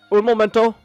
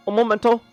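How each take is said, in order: Both takes have the same delivery.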